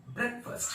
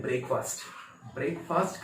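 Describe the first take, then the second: First: ब्रेकफास्ट as brek-fust, short vowels, high pitch; short brek, reduced fust in ब्रेकफास्ट; correct pronunciation. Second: ब्रेकफास्ट as brayk-faast, both vowels long; common mispronunciation. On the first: Teacher showing the right breakfast, short-vowel demonstration. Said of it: "इसको बोलेंगे". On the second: Teacher quoting what many people say, brayk-faast mispronunciation. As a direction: say break and fast in full in ब्रेकफास्ट. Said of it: "वो गलत है". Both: Shown as a demonstration.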